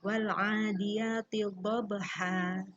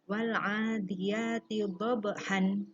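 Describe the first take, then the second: First: The last word ends on a long open a vowel. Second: The last word ends with a final n sound. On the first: The speaker calls it right. "bagus yang nomor pertama ya" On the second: The speaker calls it wrong. "Tidak boleh ketika ada tanda seperti ini, kemudian di sini ada tempat wakaf, kita membacanya dhabhan"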